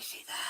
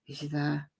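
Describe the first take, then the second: First: It is a pure, breathy whisper. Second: It is a whisper with some throat voice.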